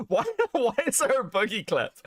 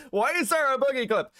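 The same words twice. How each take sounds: First: Asked through real laughter; laughing question. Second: Said in the usual way. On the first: Real, not acted. Streamer laughing at an unexpected Boogie clip, real laughter.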